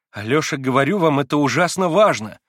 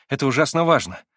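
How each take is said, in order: First: "важно" pressed louder and falling; louder insistence on "ужасно важно"; insistent. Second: Said in the usual way. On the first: A narrator's reading. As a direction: drive the point home. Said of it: "в чрезмерном уже удивлении продолжала Лиза". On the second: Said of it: "в чрезмерном уже удивлении".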